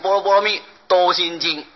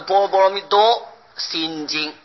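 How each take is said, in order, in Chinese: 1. “多”跟后面的字一组。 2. “多”跟前面的字一组。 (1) "不会念就念成" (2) "应当是"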